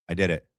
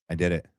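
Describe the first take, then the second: The two takes are said the same way.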